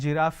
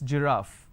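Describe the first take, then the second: First: It begins with a hard g sound. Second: It begins with a soft j sound. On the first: The speaker calls it wrong. "It's not giraffe" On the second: The speaker calls it right. "it's giraffe"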